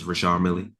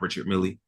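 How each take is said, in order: First: The name is said with French sounds. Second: The name is said with English sounds. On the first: The speaker calls it right. "that is actually how you pronounce the watch name" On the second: The speaker calls it wrong. "It's not"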